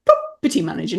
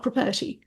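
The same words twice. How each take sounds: First: "Property manager" punched on PROP; coaching demo of "Property manager", PROP stressed; stress on first syllable. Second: "property" with stress moved off the first syllable; demonstrating the mistaken pro-PER-ty for "property"; wrong stress. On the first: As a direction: land on the first syllable of "Property", then fall away. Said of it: "We jump on the first one". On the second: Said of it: "not property". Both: Shown as a demonstration.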